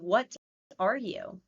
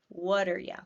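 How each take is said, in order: First: The last word is said fully as 'you'. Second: The last word is reduced to 'ya'. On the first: "Is what are you?" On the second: "That sounds pretty different"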